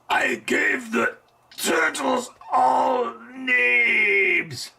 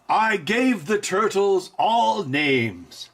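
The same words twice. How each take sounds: First: It is said slowly, with strain. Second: It is said smoothly and refined.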